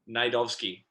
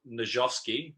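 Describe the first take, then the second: First: The J sound in the middle is silent. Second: The J sound in the middle is pronounced. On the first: The speaker calls it right. "with a silent J" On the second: The speaker calls it wrong. "so it's not Najovsky"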